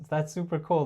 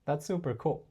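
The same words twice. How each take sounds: First: Eager, pleading "that's super cool"; needy, over-eager "that's super cool". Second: Calm, softer "that's super cool" from a higher frame; cool and unimpressed "that's super cool". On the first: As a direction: say "that's super cool" like you need her approval. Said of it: "like, pleading". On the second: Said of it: "coming from a higher frame". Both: Shown as a demonstration.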